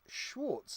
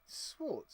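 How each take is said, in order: First: The name begins with a sh sound. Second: The name begins with a plain s sound. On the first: The speaker calls it right. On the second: The speaker calls it wrong.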